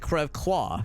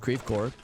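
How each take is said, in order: First: It is said with French pronunciation. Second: It is said with an anglicized local pronunciation. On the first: "if you're saying French" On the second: "So it's not Creve Claw in Saint Louis. The suburb is called Creve Coeur"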